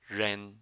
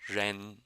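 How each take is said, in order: The two takes are said the same way.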